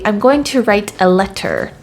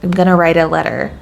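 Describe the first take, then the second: First: The T sounds are pronounced clearly. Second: Several T sounds are dropped or softened. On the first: The speaker calls it wrong. "I wouldn't say" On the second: The speaker calls it right. "there's a few T's in there that I just did not say"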